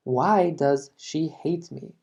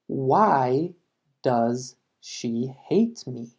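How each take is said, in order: First: Slow model with why stressed; slow classroom repeat, why leaned on. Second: Very slow, with hate carried by a falling tune; very slow classroom model, falling on hate; slow teaching read. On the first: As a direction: repeat it slowly, leaning on why. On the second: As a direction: drag it out word by word. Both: Shown as a demonstration. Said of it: "Otro ejemplo".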